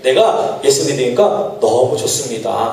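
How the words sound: It sounds stiff, like wooden acting.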